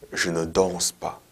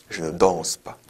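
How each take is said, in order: Both takes have the same delivery.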